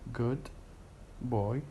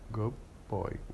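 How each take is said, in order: First: The word good ends with a d sound. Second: The word good ends with a b sound. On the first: "in careful speech" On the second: "in connected speech, in fast speech, it would be good boy"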